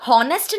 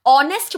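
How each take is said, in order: First: हॉनेस्ट with a clear breathy h at the start; wrong sounded h. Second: ऑनेस्ट with no h, starting on a clean vowel; silent h. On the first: Teacher showing students the wrong way: हॉनेस्ट with sounded h. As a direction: say हॉनेस्ट as hon-est, h voiced. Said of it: "हॉनेस्ट नहीं बोलते". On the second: Teacher showing students the right way: ऑनेस्ट with silent h. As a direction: say ऑनेस्ट as on-est, the h dropped. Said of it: "हम लोग ऑनेस्ट बोलते हैं ना". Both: Shown as a demonstration.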